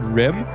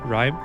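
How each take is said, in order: First: The vowel is short, like in 'rim'. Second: The vowel is long, like in 'rhyme'. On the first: The speaker calls it wrong. "or sorry" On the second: The speaker calls it right. "the chat also told me how to say it correctly"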